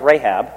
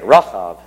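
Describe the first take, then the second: First: Said in the usual way. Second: Rahav said with a v sound, not Rahab; odd pronunciation. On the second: Shown as a demonstration. Preacher marks the sea monster's name, saying Rahav with v. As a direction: say Rahav ending in v. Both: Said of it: "I pronounced it funny".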